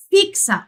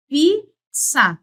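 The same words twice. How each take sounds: First: Said in the usual way. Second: FIXA split as fiik, then sa; syllable by syllable. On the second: Shown as a demonstration. Teacher showing the sounds in a word, syllable by syllable. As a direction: pause inside FIXA between the two syllables. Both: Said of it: "Veja que eu falo assim".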